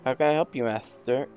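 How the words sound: The S sounds are lisped. The speaker calls it right.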